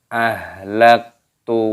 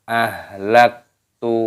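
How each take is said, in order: The two takes are said the same way.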